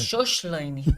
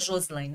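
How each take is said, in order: First: The consonant before the L is a hushing sh. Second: The consonant before the L is a hissing s. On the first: This is how people from Rio say the name. The speaker calls it wrong. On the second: This is how the name should sound. The speaker calls it right.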